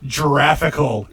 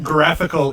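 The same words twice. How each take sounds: First: It begins with a soft J sound. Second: It begins with a hard G sound. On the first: The speaker calls it wrong. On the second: The speaker calls it right. "pronounced with a G is GIF, because it's graphical"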